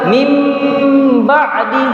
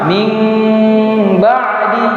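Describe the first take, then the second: First: The m sound is pronounced fully and clearly. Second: The m sound is nasal and concealed, blurred. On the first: The speaker calls it wrong. "Tidak boleh kita bilang" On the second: The speaker calls it right. "tapi disamarkan"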